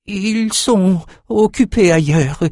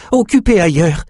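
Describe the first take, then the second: First: Put-on high, slow, evasive old man; nervous servant. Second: High, a bit louder repeat; nervous servant. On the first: Old cook lying to his king, high and nervous. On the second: Cook repeating his excuse to the king, high and insistent. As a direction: insist on the lie. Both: A narrator's reading. Frightened slave lies.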